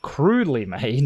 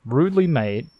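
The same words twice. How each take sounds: First: "crudely" said slowly with the hard c sound; corrected word. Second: "rudely" read by mistake as rudely, no c sound; misread word. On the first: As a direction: fix it to "crudely", careful and slow. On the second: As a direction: slip on "rudely" before correcting. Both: Shown as a demonstration. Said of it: "not rudely made".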